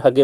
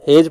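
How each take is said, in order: First: हगे in two syllables, "huh-gay"; mnemonic misreading. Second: हेज as a single syllable, "hayj"; one-syllable reading. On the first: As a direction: say हगे with a hard g and open ending. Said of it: "या फिर हगे पढ़ो". (हगे, "ह" और "गे" दो हिस्सों में) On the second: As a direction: say हेज with "ay" and a closing j. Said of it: "हेज पढ़ो". (हेज, एक ही अक्षर-खंड में) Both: Shown as a demonstration.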